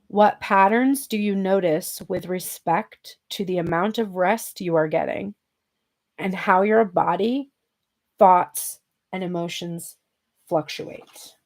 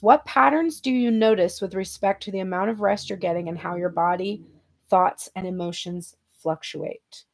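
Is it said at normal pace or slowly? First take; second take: slowly; normal. First: It is said more slowly. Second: It is said at a normal pace.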